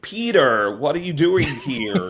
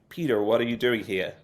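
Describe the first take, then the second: First: The R sounds are strongly exaggerated. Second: One R sound is dropped. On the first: "over egging the R" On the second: "accidentally missing it in one place"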